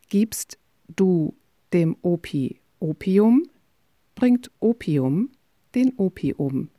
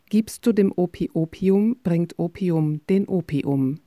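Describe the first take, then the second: First: It is said at a slow pace. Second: It is said at a faster pace.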